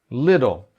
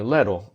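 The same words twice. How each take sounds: First: The first vowel sounds like a short 'ih'. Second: The first vowel sounds like a quick 'eh'. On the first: The speaker calls it right. "o melhor jeito de pronunciar é como se fosse I" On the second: The speaker calls it wrong. "esse E, little, dá se você falar rapidinho"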